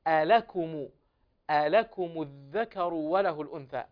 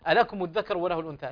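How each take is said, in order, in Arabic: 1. تُعطى الحركات القصيرة حقها الكامل. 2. تُخطف الحركات القصيرة وتُسرع. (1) "أعطي الحركات حقها على هذه الأحرف" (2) "يخطف الحركات الواردة على الأحرف"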